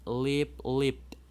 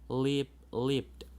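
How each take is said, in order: Both takes have the same delivery.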